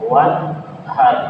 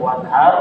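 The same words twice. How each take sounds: First: The h is a harsh, tight throat sound. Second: The h is a soft, plain breathy sound. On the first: It means to offer a sacrifice. The speaker calls it right. "li rabbika untuk Tuhanmu wanhar" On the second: It refers to a river. The speaker calls it wrong. "Kalau wanhar artinya dia mati di sungai"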